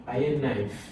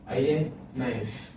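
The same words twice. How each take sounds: First: Said in the usual way. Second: Slow repeat. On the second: Shown as a demonstration.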